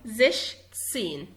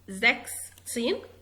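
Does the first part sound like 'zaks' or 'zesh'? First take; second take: zesh; zaks. First: The first part has an sh sound, 'zesh'. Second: The first part has a k-s sound, 'zaks'. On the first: The speaker calls it right. "بقول زش سين" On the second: The speaker calls it wrong. "ما بقولش زاكس سين، غلط غلط"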